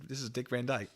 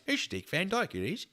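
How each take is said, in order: First: Said in the usual way. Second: High, mock Cockney accent; badly faked British accent, pitched up; Dick Van Dyke. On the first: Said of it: "Oh wait, no, this is". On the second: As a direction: put on a hammy chimney-sweep Cockney accent.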